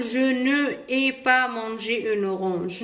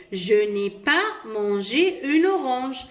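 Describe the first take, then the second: First: "je ne ai" with ne and ai said apart, no elision; wrong form. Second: "n'ai" joined into one sound, read slowly; correct elided form. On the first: Teacher shows pupils the wrong unelided form. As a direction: show the mistake the pupils must avoid. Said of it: "ما نقدرش نقول". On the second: Teacher gives pupils the correct form, slowly. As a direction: show the right way, slow and clear. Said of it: "Non, je dis". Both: Shown as a demonstration.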